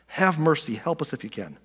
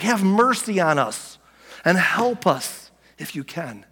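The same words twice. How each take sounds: First: Subdued, quicker repeat of the plea; understated, hushed begging; desperate plea. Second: Slow, drawn-out begging for mercy; acted desperation, each plea stretched out; desperate plea. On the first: Acted. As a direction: plead softly, falling away at the end. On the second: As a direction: act out a father pleading for help. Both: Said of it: "Can you hear the desperation in his voice?".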